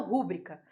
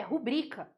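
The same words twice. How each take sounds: First: Rúbrica stressed on the first syllable ru; wrong proparoxytone rúbrica. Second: Rubrica stressed on bri, not on ru; correct rubrica. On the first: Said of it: "não". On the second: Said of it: "O correto é". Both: Shown as a demonstration.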